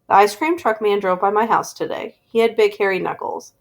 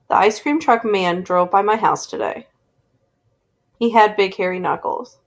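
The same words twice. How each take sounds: First: There is no pause after today. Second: There is a pause after today.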